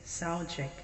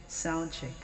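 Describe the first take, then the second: No difference in how they are said.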